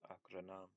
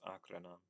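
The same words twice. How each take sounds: First: The stress is on a later syllable. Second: The stress is on the first syllable. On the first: The speaker calls it wrong. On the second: The speaker calls it right. "the stress is always at the beginning"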